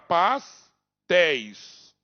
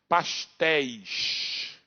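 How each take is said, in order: First: It is said in a Mato Grosso accent. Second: It is said in a Carioca accent.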